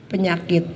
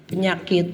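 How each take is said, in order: The two takes are said the same way.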